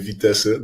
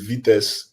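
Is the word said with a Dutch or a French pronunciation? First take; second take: Dutch; French. First: It is said with a Dutch pronunciation. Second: It is said with a French pronunciation. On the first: This is how it is said in the Netherlands. "in the Netherlands, we actually say Vitesse" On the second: This is the original word in its source language. "it's actually a French word, which is vitesse"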